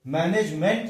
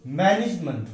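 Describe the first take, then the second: First: मैनेजमेंट with full "nej" and "MENT"; wrong pronunciation. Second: मैनेजमेंट as "MAN-ij-munt"; correct pronunciation. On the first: Teacher rejecting the mistake, wrong pronunciation. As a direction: say ma-nej-MENT, ending unweakened. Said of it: "मैनेजमेंट नहीं होता". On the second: Teacher showing weak syllables, correct pronunciation. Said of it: "आगे का syllable वीक". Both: Shown as a demonstration.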